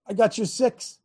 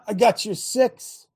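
First: Said in the usual way. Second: "I got your six" drawn out slowly, each word weighed; slow emphatic repeat. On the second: Shown as a demonstration. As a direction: lean into every word slowly.

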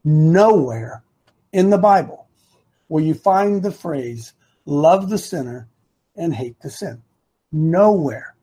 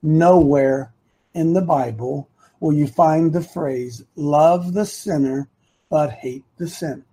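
First: Very deliberate, broken into short phrases; low, emphatic, drawn-out "Nowhere"; real slowly. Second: Low and measured, one phrase at a time; deliberate phrasing with a weighty "Nowhere"; simple, deliberate. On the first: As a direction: spell it out slowly with a pause after each phrase. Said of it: "say this again real slowly". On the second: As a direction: spell it out simply, pausing between phrases. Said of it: "let me say this really easy". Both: Shown as a demonstration.

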